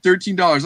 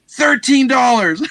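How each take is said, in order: First: Said in the usual way. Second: Quoted price. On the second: Retold or imitated. Seller names his price.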